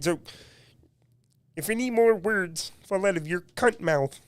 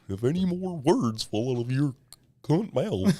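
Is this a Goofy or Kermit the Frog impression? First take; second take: Kermit the Frog; Goofy. First: It is said in a Kermit the Frog voice. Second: It is said in a Goofy voice.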